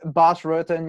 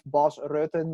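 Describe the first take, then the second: First: The name is said with English-style pronunciation. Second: The name is said with Dutch pronunciation. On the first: The speaker calls it wrong. "so many people always say" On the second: The speaker calls it right.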